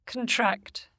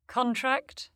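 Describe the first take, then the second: First: "contract" as a verb, c'n-TRACT with reduced vowel; stress on second syllable. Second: "contract" as a noun, CON-tract with full vowel; stress on first syllable. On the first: Teacher shows the verb, "contract" stressed on TRACT. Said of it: "stressed on the stem". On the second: Teacher shows the noun, "contract" stressed on CON. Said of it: "stressed on the prefix". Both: Shown as a demonstration.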